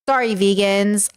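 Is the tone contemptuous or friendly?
contemptuous. It sounds scornful, mean and dismissive. The comment is meant as a put-down. "Like ugh, vegans"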